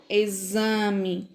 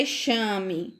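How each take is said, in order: First: "Exame" said as e-ZA-me; X with Z sound. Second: "exame" misread as e-SHA-me; "exame" with a hushing sh for the x; wrong X sound. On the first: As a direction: model "Exame" with a buzzing z. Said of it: "tem o som da letra Z". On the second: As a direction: say "exame" with sh instead of z. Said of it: "Não é exame". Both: Shown as a demonstration.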